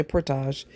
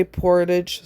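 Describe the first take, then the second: First: Portage said por-TAHZH, ending soft zh; French-style portage. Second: Portage said as PORE-tidge, ending in a hard d. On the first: Contrasting with the first version, French por-TAHZH. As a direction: portage said the French way, stress on the last syllable. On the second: Explaining how some people say the word, English PORE-tidge. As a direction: portage said the English way, stress on the first syllable. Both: Shown as a demonstration. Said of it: "some people say portage".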